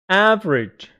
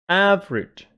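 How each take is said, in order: Both takes have the same delivery.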